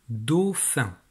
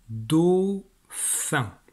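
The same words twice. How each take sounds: First: Said in the usual way. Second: Slow, stretched dictation in two separate syllables. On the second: Shown as a demonstration. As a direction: draw out each syllable for a pupil writing. Dictée découpée en syllabes. (dictée lente, syllabe par syllabe)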